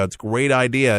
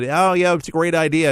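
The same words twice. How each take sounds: First: Said in the usual way. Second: Higher, breezy brush-off imitating careless listeners; mock dismissive. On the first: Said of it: "If you ever owned a weather radio". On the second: Host mimics people dismissing weather radios, mock breezy. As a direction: toss off "great" like people who shrug it off. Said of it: "they, they hear it".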